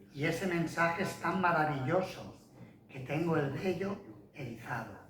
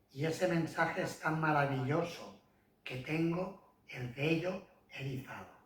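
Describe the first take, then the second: Both takes have the same delivery.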